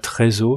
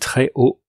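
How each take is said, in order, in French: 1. Une liaison en z relie très et haut. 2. Pas de liaison en z entre très et haut. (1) "Et non pas" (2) "Avec un H aspiré, pas de liaison"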